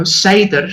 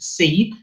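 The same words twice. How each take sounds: First: "Seder" said as two syllables, SAY-der; usual pronunciation. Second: "Seed" said as one syllable; alternative pronunciation. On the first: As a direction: say "Seder" with a long ay, then der. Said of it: "or as some people may pronounce it". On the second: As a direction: say "Seed" with no -er ending. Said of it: "some people may pronounce it". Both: Shown as a demonstration.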